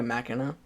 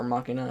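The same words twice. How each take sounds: First: Machina said MACK-in-uh; alternate pronunciation. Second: Machina said MAH-kin-uh; alternate pronunciation. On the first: Unsure vlogger offering one option, Machina pronounced MACK-in-uh. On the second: Unsure vlogger correcting to another option, Machina pronounced MAH-kin-uh. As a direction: say "Machina" with an open a, as in "mock". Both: Shown as a demonstration. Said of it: "however you pronounce it".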